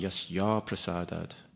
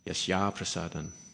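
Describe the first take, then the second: First: The second word ends with a d sound. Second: The second word ends with an n sound. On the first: The speaker calls it wrong. "Because I sung yasya prasadad" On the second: The speaker calls it right. "rather than yasya prasadan"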